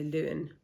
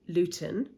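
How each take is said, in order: First: The middle T is dropped. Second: The middle T is clearly pronounced.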